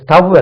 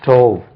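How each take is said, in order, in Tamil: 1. உயிர் ஒலி குறுகிய 'uh' ஒலி. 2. உயிர் ஒலி நீண்ட 'oh' ஒலி. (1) "அது ஸ்டவ் அல்ல" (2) "இது ஸ்டோவ்"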